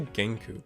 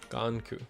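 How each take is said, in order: First: The first vowel sounds like 'eh'. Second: The first vowel sounds like 'ah'. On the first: The speaker calls it wrong. "I say Genku, but it's a Ganku. I always do that" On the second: The speaker calls it right. "but it's a Ganku"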